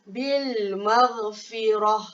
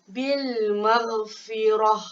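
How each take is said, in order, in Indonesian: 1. Kata terakhir diakhiri dengan bunyi h. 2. Kata terakhir diakhiri dengan bunyi h.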